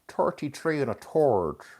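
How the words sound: It is said in a stereotyped, exaggerated accent. This is how outsiders expect the speaker to talk. The speaker calls it wrong. "you want me to say it ... And we don't speak like that"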